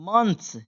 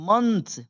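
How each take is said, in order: The two takes are said the same way.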